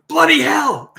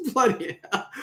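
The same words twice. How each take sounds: First: Loud, high cry of alarm; a woman shrieking in the dark; startled shout. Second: Giggling through Bloody hell; amused echo of a startled cry; laughing repeat. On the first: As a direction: yell it out in sudden fright. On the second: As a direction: chuckle the words Bloody hell. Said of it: "you can tell this is an Aussie". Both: Acted.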